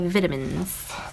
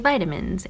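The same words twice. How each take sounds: First: It is said with a British pronunciation. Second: It is said with an American pronunciation. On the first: "British people say vitamins" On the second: "Americans say vitamins"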